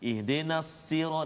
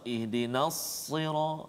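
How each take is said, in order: First: Sira starts with a light, thin s. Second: Sira starts with a heavy, emphatic s. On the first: The speaker calls it wrong. "dengan sin pula" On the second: The speaker calls it right. "Patutnya dengan sad"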